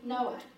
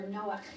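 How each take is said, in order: First: It uses the English pronunciation of the name. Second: It uses the Hebrew pronunciation of the name.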